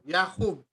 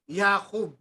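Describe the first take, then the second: First: It begins with a consonant y sound. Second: The same.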